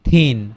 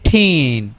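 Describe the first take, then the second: First: The word begins with a soft th sound. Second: The word begins with an aspirated t sound. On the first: It means slim. The speaker calls it right. "তাহলে তাকে কি বলবো? যে থিন" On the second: It sounds like the word tin. The speaker calls it wrong. "ঠিন বললে তো কেমন শোনাবে"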